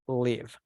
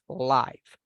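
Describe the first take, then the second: First: The vowel is short, as in give. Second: The vowel is long, as in five. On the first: It is about where someone resides. "when we want to talk about where we live, we pronounce it as live" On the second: Something is happening in real time. "in that context, we use or we pronounce it as live"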